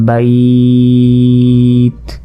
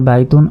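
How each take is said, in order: First: It stops, stretched, ending on a bare consonant. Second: It runs on, ending with a vowel plus n. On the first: The reader stops at this word. "যদি এখানে আমরা ওয়াকফ করি অর্থাৎ থেমে যাই" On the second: The reading continues without stopping. "যদি আমরা একবারে পড়ে যাই"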